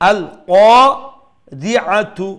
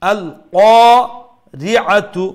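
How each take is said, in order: Both takes have the same delivery.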